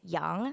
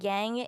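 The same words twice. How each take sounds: First: It is said with a Chinese-style vowel. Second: It is said with an English-style vowel. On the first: The speaker calls it right. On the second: The speaker calls it wrong.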